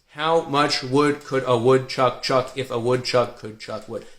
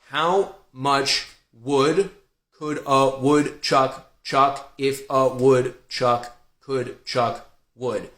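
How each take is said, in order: First: It is said more quickly and smoothly. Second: It is said slowly and carefully. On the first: The speaker has built accuracy and can now speed up. "Now you can probably do it a little faster" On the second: The speaker is focusing on accuracy. "You slow down"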